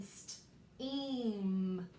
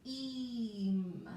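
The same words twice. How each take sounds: First: "Steam" with the final M held; ending emphasized. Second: "Steam" drawn out with a long "ee"; slow stretched "Steam"; stretched word. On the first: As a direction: lean on the M of "Steam". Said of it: "what do we hear at the end?". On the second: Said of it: "let's stretch that out". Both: Shown as a demonstration.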